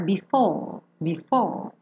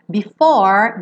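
First: BEFORE sem R, "bifóó", descendo; sem enrolar. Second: BEFORE com R final enrolado, subindo. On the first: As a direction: alongue o O de BEFORE, língua solta. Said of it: "Pode ficar mais". (BEFORE à britânica, mais baixo) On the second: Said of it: "com a língua bem enroladinha". (BEFORE à americana, com R) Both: Shown as a demonstration.

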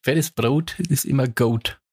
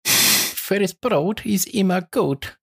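First: Said in the usual way. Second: Slow and higher, drawn out; drawn-out hype voice. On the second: Shown as a demonstration. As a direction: stretch it like a hype chant. Repeats the phrase performed.

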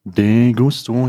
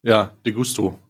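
First: Drawn out. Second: Said in the usual way. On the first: Shown as a demonstration.

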